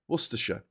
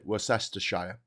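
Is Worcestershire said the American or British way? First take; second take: British; American. First: It is said the British way. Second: It is said the American way. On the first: This is how locals say the place name. "a place in the U K called" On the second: This is how the listener would probably say it. "although you'll probably pronounce it"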